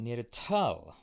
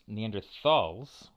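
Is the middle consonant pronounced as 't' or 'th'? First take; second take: t; th. First: The middle consonant is a plain 't' sound. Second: The middle consonant is a 'th' sound. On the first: It follows the German word for the valley. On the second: It is a shortened form of the taxonomic term. "with a TH there"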